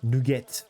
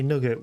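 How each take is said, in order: First: NUGGET as a French word, noo-GET; French-accented "Nugget", second syllable a full "get". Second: Said in the usual way. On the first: Shown as a demonstration. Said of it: "with a French accent".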